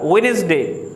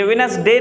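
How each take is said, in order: First: "वेडनेसडे" with a rounded wen and light is; correct pronunciation. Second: A short, dull vowel in the middle of "वेडनेसडे"; "वेडनेसडे" opening on a short wi; wrong pronunciation. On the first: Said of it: "नहीं होता". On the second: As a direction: say "वेडनेसडे" as wi-nus-day. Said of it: "ये वेडनेसडे नहीं होता". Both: Shown as a demonstration.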